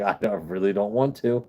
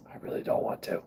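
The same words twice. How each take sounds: First: Said in the usual way. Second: Whispered aside under his breath. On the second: Real, not acted. Streamer whispering to himself about not wanting to drink.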